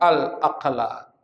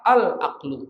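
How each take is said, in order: First: The word ends with an 'a' vowel. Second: The word ends with a 'u' vowel. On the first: The speaker calls it wrong. "ini bukan al-aqla" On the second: The speaker calls it right. "Harusnya gitu bacanya"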